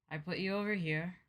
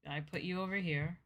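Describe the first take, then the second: No difference in how they are said.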